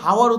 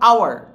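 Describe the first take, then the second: First: The word starts with an audible h sound. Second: The word starts with a vowel, no h. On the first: The speaker calls it wrong. "এটা কিন্তু হাওয়ার উচ্চারণ করবো না" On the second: The speaker calls it right. "কি উচ্চারণ করবা, আওয়ার"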